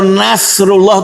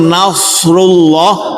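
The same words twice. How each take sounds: First: The s sound is thin and light. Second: The s sound is thick and heavy. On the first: The speaker calls it wrong. "Kalau Nasrullah itu sin" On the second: The speaker calls it right. "Kalau Nasrullah sodenya tebal"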